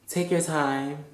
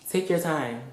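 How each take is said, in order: Both takes have the same delivery.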